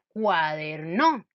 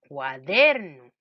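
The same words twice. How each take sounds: First: The stress is on the third syllable. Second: The stress is on the second syllable. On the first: The speaker calls it wrong. "Si yo pusiera el acento en la no" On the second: The speaker calls it right. "si le pongo el acento en la sílaba der"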